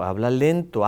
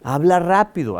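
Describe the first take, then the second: First: Drawn-out demonstration of slowness; speaking slowly. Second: Quick, brisk demonstration; speaking fast. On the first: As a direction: stretch the words out slowly. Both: Shown as a demonstration.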